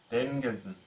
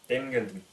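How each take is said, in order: Both takes have the same delivery.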